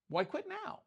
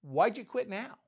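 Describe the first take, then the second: First: Squeaky high "Why quit now?" in a soft voice; high mocking question. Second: Said in the usual way. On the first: Preacher teasing Peter about quitting, high mock squeak. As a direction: tease Peter with a high, thin voice. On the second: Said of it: "you had the faith to get out".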